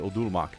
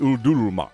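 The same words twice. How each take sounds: First: It is said in a plain, ordinary voice. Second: It is said in a dramatic villain voice. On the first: "I can't just say Udurumak" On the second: "It has to be Udurumak"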